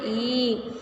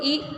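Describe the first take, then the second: First: The vowel is held about twice as long. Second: The vowel is short and quick. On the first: "बड़ी ई को ई" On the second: "छोटी ई को ई"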